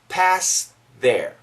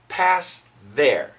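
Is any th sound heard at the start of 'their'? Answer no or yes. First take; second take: yes; yes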